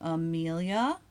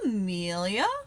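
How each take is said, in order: First: It sounds like a neutral call to speak next. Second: It sounds surprised at seeing the person there. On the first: It is your turn to talk. "as in you talk next" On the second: I did not expect to see you here. "what are you doing here"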